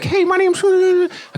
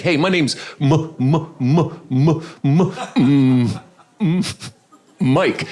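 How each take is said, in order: First: Very high, squeaky little mock voice; tiny voice. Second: Stuck repeatedly on the first sound of the name; mock stutter. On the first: Lady introducing herself to the realtor, tiny voice. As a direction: shrink it to a tiny, high-pitched peep. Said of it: "She had a really tiny voice". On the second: Man introducing himself to the realtor, mock stutter. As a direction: stammer hard on M before getting the name out. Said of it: "when somebody has a messed up stutter".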